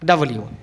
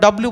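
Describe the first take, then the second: First: It is said as two separate words. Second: It is squeezed into one blended word. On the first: The speaker calls it right. "Actually উচ্চারণ হচ্ছে ডাবল ইউ" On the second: The speaker calls it wrong. "এটা কি আমরা ডাব্লিউ বলি"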